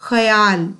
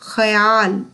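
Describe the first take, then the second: No difference in how they are said.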